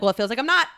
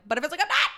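First: Said in the usual way. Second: High-pitched protest, rising at the end; higher, mock-petulant pushback; insistent protest. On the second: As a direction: retell it as a squeaky objection. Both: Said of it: "I'm like".

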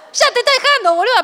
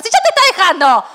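First: Bigger mock exclamation. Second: Louder, higher exclaim; mock exclamation. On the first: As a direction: push it up high, exasperated. Mocking friend's fear, escalating. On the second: Friend mocks the fear of being left, louder and higher. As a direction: scoff it out loud, higher.

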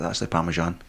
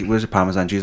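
First: "Parmesan" with a soft "zh", very low in volume; corrective pronunciation. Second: Said in the usual way. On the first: Retold or imitated. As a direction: murmur "Parmesan" as "parma-ZHAN". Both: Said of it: "first things people saying".

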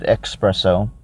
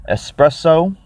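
First: Espresso said as "ek-SPRESS-oh"; mispronounced with X. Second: Said in the usual way. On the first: Shown as a demonstration. Drink reviewer joking about the flavor's name, espresso mispronounced as "expresso". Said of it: "Not to be confused with".

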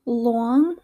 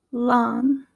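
First: "long" with a rounded "aw" vowel; East Coast pronunciation. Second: "long" with an open "ah" vowel; Midwestern pronunciation. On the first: Teacher contrasting accents, "long" said East Coast as "lawng". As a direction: say "long" as "lwawng". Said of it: "in an East Coast accent". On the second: Teacher contrasting accents, "long" said Midwestern as "lahng". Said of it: "in my Midwestern accent". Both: Shown as a demonstration.

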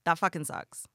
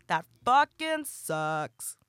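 First: Said in the usual way. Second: Dragged out slowly, each word weighed; slow emphatic repeat. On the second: Shown as a demonstration. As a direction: stretch it out for emphasis. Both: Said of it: "repeated phrase".

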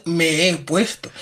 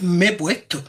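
First: "me he puesto" said slowly, the "he" held apart; slow, deliberate "me he puesto" with the vowels kept apart; careful standard Spanish. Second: "me he puesto" run together as "me puesto"; "me he puesto" with the vowels merged the Andalusian way; Andalusian joined words. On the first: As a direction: pronounce every syllable of "me he puesto" slowly. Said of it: "y no es". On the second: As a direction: swallow the "he" in "me he puesto", Andalusian style. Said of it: "es que en Andalucía es". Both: Shown as a demonstration.

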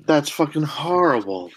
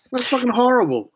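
First: Said in the usual way. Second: Much higher appalled cry; high, strained disgusted outburst. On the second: Real, not acted. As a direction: recoil in disgust. Disgusted reaction repeated.

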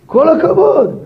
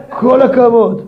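First: הכבוד lifted high and stressed; second take, praise peaking on הכבוד. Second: כל hit first, הכבוד falling away; stress on כל. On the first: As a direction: throw the weight onto הכבוד. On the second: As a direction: lean on the word כל. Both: Shown as a demonstration. Praise said twice, stress shifts.

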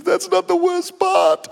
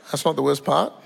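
First: High, drawn-out comic wail; hammed-up crying voice, slow; mock tearful. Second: Said in the usual way. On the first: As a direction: wail that worse news is coming, as a put-on weeper. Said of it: "She's in tears". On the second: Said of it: "I go".

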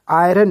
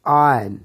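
First: आयरन with the r sounded, "aay-ran"; wrong pronunciation. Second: आयरन with silent r, "aa-yan", loud and falling; correct pronunciation. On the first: Teacher showing what not to say, wrong pronunciation. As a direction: mispronounce आयरन with a clear r. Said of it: "इसी तरह से आयरन नहीं". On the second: Teacher giving the English form, correct pronunciation. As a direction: say आयरन as "aayan", no r. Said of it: "क्या बोलना है?". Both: Shown as a demonstration.

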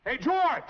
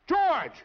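First: Hailing a friend from a distance; calling out. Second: Second, more urgent call; louder call. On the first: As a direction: call his name across the street. Calling out to George. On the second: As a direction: call his name again, louder. Calling out again, louder. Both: Acted.

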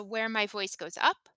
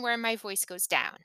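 First: "up" lifted in pitch at the end; rising intonation. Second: "down" dropping in pitch at the end; falling intonation. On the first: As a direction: let the voice climb on "up". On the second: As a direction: let the voice fall away on "down". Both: Shown as a demonstration.

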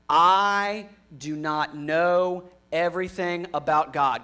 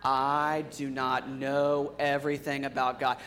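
First: Said in the usual way. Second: Flat, slow group recital; monotone. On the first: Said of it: "I want you to repeat after me". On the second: Shown as a demonstration. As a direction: recite it flat, like a rote chant. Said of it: "it sounded kinda, like, monotone".

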